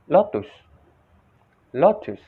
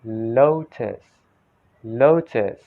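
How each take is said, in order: First: "lotus" said "LOT-toos", short o; Indonesian-style "lotus"; Indonesian pronunciation. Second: "lotus" said "LOH-tis", long gliding o; "lotus" with long o and falling end; American pronunciation. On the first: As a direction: demonstrate short, higher "lotus" with "oo" in the ending. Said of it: "Indonesian people pronounce lotus like". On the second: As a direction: stretch the first syllable of "lotus", American-style. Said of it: "American accent, they said". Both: Shown as a demonstration.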